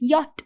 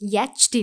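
First: The word ends in a plain 't' sound. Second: The word ends in a 'ch' sound. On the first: The speaker calls it right. "யாட் அப்படின்னு சொன்னாலும்" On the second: The speaker calls it wrong. "இல்லை"

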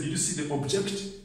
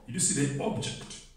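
First: The second syllable of 'object' is stressed. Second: The first syllable of 'object' is stressed. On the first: The speaker calls it wrong. "Don't say" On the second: The speaker calls it right. "So the stress is on the first syllable"

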